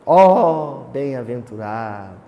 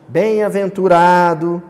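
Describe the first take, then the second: First: Louder poetic "Ó", falling close; declaiming. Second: Said in the usual way. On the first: Retold or imitated. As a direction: recite it like a poem. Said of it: "Você declamou". (declamação poética, "Ó" mais forte) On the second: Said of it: "Não é simplesmente".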